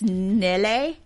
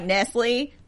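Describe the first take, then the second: First: The name sounds like the word Nelly. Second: The name sounds like the word Nestle. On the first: The speaker calls it right. "but it's Nelly" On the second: The speaker calls it wrong. "It looks like Nestle"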